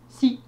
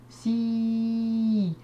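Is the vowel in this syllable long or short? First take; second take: short; long. First: The vowel is short and clipped. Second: The vowel is long and drawn out. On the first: "Donc j'ai écrit un son court" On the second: "En rajoutant la lettre ya, je fais le son si"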